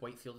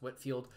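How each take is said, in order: First: The first syllable rhymes with 'white'. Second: The first syllable rhymes with 'wit'. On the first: The speaker calls it wrong. "I know it looks like Whitefield" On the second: The speaker calls it right. "it's pronounced Whitfield"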